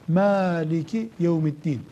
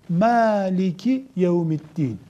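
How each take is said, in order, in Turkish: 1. İlk ünlü açık bir 'a' sesidir. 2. İlk ünlü açık bir 'a' sesidir.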